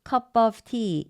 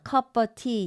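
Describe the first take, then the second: First: The v sound in 'of' is clearly pronounced. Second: The v sound in 'of' is dropped.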